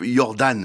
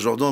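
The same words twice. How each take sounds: First: The name is pronounced the Swiss-German way. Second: The name is pronounced the French way. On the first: This is how Swiss listeners know the name. "pour nos amis suisses, c'est Philippe Jordan" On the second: This is how the name is said in France. "on va dire Jordan parce qu'on connaissait votre papa aussi"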